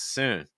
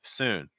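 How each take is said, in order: Both takes have the same delivery.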